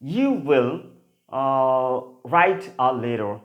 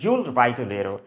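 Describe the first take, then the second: First: You will is said as two full words. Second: You will is shortened to one syllable.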